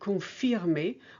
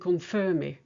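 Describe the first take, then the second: First: It is said with a French vowel sound. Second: It is said with an English vowel sound. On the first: The speaker calls it right. "in French it's E as in cirque and confirmer" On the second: The speaker calls it wrong. "in English you tend to say cirque and confirmer"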